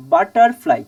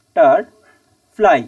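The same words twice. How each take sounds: First: Said in the usual way. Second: "butterfly" in three separate pieces with long pauses between; syllable by syllable. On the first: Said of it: "তাহলে বাটারফ্লাইকে উচ্চারণ করতে গেলে". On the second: Shown as a demonstration. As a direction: break "butterfly" slowly into বা-টার-ফ্লাই. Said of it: "এই তিনটে". ("Butterfly" তিন ভাগে থেমে থেমে, ধীরে)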